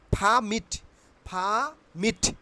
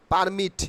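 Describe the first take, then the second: First: "permit" with puffed P and silent R; correct pronunciation. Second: "permit" with a plain P and sounded R; wrong pronunciation. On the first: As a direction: say "permit" as "phaa-mit". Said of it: "আমার সঙ্গে বলো". ("permit"-কে ফামিট বলে) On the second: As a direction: say "permit" as "par-mit". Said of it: "খুবই ভুল উচ্চারণ". ("permit"-কে পারমিট বলে) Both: Shown as a demonstration.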